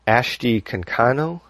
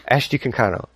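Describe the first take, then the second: First: "Ashti Kankano" as a careful guess, rising at the end; tentative name attempt. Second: "Ashti Kankano" in one quick run, falling at the end; said fast. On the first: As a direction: sound the name out carefully, with a questioning rise. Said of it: "let's see if I get this right". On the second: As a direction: rattle the name off quickly. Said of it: "say the name as fast as you can". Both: Shown as a demonstration.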